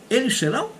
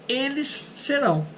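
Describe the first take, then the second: First: Said as a question, rising at the end. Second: Said as a statement, falling at the end. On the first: It asks whether they will be. "to make a question, I just change the intonation" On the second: It states that they will be. "is affirmative statement"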